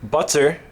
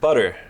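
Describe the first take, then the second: First: The middle t is a crisp t sound. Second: The middle t is a quick flap.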